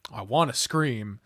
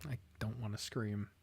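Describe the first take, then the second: First: Said in the usual way. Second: Soft, held-in voice; held-back scream. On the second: Real, not acted. Player fighting back a scream, soft restraint. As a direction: choke it down, keeping quiet.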